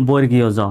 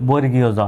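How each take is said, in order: No difference in how they are said.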